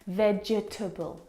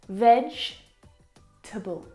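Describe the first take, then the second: First: The word is said with four syllables. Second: The word is said with three syllables. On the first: The speaker calls it wrong. "it looks like there should be four syllables" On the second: The speaker calls it right. "There are three syllables"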